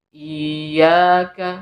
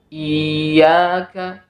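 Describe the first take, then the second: Both takes have the same delivery.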